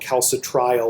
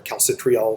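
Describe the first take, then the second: First: Calcitriol with TRI said like "try"; first pronunciation. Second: Calcitriol with TRI said like "tree"; alternative pronunciation. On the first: Lecturer naming the active vitamin D, first pronunciation with a "try" sound in calcitriol. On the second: Lecturer giving how some people pronounce it, calcitriol with a "tree" sound. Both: Shown as a demonstration. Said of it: "some people pronounce it".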